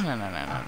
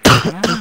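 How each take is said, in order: First: Said in the usual way. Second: High sharp shouted no; loud scolding no. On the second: Pretend. Mock scolding teammate's back talk.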